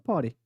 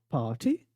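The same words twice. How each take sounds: First: It is said with an American accent. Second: It is said with a British accent. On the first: "o sotaque americano" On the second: "que é o sotaque britânico"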